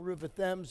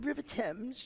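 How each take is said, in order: First: It is said in a plain American accent. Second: It is said in a put-on British accent. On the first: The speaker calls it wrong. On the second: The speaker calls it right.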